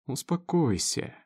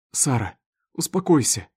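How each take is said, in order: First: Slow, drawn-out soothing word; conciliatory. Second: Raised, firm order to calm down; urgent calming command. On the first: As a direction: stretch it out to calm him. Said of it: "примирительно протянул его отец". (примирительно, протяжно) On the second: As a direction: try to halt her panic. Injured husband stops wife's panic. (резко успокаивая) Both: A narrator's reading.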